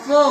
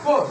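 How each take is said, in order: First: The final r sound is dropped. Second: The final r sound is pronounced. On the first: "সেই আরটা উচ্চারণ করতে হবে না" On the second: "ফোর বলেছি তাই না"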